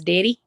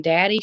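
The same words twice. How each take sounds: First: "Daddy" with first vowel raised to "deddy"; North Carolina pronunciation. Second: Said in the usual way. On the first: Retold or imitated. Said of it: "instead of saying daddy, she goes". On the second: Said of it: "instead of saying daddy".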